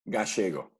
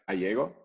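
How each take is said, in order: First: The name is said the Argentine way. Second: The name is said the American way.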